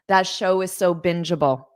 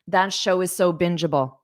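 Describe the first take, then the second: The two takes are said the same way.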